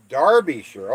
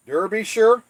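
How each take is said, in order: First: Derbyshire said as "DAR-bee-sher", falling; Derbyshire, British way. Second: Derbyshire read high and louder as "DUR-bee-shire". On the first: Repeating the viewer's correction, he says Derbyshire as "dar-bee-sher". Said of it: "is pronounced". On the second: Reading a viewer's message, he says Derbyshire as "dur-bee-shire". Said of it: "is pronounced Derbyshire". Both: Shown as a demonstration.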